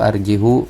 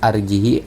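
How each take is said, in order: First: The word ends with an added u vowel. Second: The word ends with an added i vowel. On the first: "atau arjihu, tidak ya" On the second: "Jangan dibaca arjihi"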